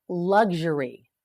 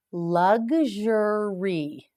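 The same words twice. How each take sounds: First: Said in the usual way. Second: "Luxury" stretched very slowly, syllable by syllable; teacher stretching "Luxury" out; slow model word. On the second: Shown as a demonstration. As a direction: draw out "Luxury" for learners to copy.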